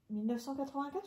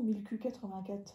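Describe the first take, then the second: First: The middle is said as the number nine hundred. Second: The middle is said as the letter Q.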